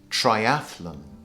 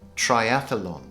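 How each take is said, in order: First: The word is said with three syllables. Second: The word is said with four syllables. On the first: The speaker calls it right. "the correct pronunciation is triathlon" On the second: The speaker calls it wrong. "everybody says triathlon"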